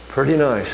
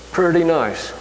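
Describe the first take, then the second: First: Said in the usual way. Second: "pretty" lifted high, then falling on "nice"; stressed pretty nice. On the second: Shown as a demonstration. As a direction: sell "pretty nice" with a raised, proud "pretty".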